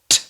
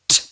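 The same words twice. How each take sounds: The two takes are said the same way.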